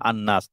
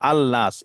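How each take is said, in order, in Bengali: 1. L বাদ পড়ে এবং N দ্বিত্ব হয়। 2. L উচ্চারিত হয় N-এর আগে। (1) "লামটা উচ্চারিত হচ্ছে না, এই জন্য আন্নাস" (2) "নুনের আগে আল নাস"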